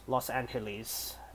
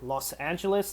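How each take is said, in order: First: The name is said with a Spanish accent. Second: The name is said with an English accent. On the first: "For the Spanish speakers" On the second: "that's English"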